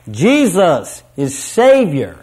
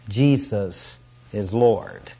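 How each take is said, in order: First: Voices joined in a ringing, drawn-out proclamation; triumphant declaration. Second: Low, soft, slow and unenthusiastic; trailing away. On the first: Preacher acting inmates joining their voices, triumphantly. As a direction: declare it triumphantly, slow and punched. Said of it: "join their voices triumphantly as they declare". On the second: Preacher acting inmates who are not as enthusiastic, trailing away. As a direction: let it trail away, half-hearted. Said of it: "they will trail away". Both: Acted.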